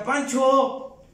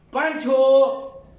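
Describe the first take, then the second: First: First call of the name, raised. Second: Second call of Pancho, louder and pressing. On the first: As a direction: call his name across the doorway. Abuela llama al abuelo. (primer llamado, en voz alzada) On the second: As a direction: call Pancho again, insisting. Abuela llama al abuelo de nuevo. (segundo llamado a Pancho, más fuerte e insistente) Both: Retold or imitated.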